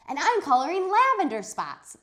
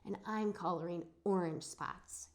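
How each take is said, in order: First: High, loud chirpy announcement; proud of her color; eager girl. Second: Kind of soft. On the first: Charlotte proudly announces her color, high and loud. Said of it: "said Charlotte". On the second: Shy William tells the class his spot color softly. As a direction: say it shyly, barely there. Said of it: "he said, kind of soft". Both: Acted.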